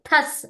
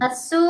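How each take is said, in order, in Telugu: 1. ఈ పదం హల్లుతో ముగుస్తుంది. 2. ఈ పదం చివర అదనపు అచ్చుతో ముగుస్తుంది.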